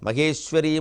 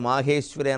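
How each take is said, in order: First: The first vowel is cut short. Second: The first vowel is held long. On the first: This is the name that comes later in the text. The speaker calls it wrong. "అలా చదవకూడదు" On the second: The goddess is the power belonging to Maheshvara. The speaker calls it right. "మాహేశ్వరి అని దీర్ఘం వస్తుంది"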